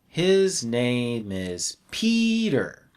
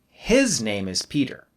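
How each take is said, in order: First: The word Peter carries the strongest stress. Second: The word his carries the strongest stress. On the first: No special contrast is intended. "we leave the stress on the last content word" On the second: It is this person's name, not another person's. "then I'll put stress on his"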